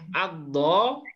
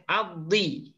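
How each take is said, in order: First: The word ends with an a vowel. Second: The word ends with an i vowel.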